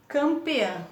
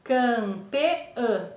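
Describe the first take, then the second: First: Said in the usual way. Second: CAM - PE - Ã, three separate beats; teacher sounding out CAM-PE-Ã; split into syllables. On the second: Shown as a demonstration. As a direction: say campeã in three pieces, CAM, PE, Ã. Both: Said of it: "Três sílabas".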